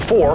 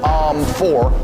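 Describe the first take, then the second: First: It is said confidently, without any filler. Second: It is said hesitantly, with a filler first.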